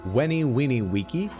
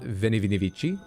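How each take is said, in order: First: Each word starts with a W sound. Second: Each word starts with a V sound. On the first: The speaker calls it right. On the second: The speaker calls it wrong. "it's not"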